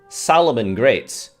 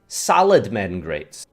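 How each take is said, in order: First: The start sounds like 'salamander'. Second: The start sounds like 'salad men'. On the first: This is how most people say it. The speaker calls it right. "Normal people" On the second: The name was misread. The speaker calls it wrong. "Me, a dyslexic"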